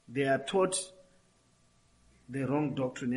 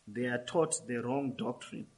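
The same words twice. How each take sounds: First: "They are taught" then a long pause before "the wrong doctrine"; slow emphatic repeat. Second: Said in the usual way. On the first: Shown as a demonstration. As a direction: hang on "taught", then land "wrong" firmly.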